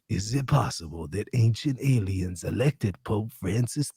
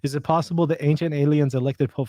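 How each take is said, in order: First: It is read in a put-on narrator voice. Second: It is read in his natural speaking voice. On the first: The speaker calls it right. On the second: The speaker calls it wrong.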